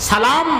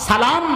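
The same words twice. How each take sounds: Both takes have the same delivery.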